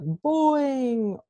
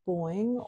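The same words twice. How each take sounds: First: The word is said loudly. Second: The word is said quietly. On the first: The text on the page is big. "you could say something louder" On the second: The text on the page is small. "if it's smaller, you could do a boing or a whisper too"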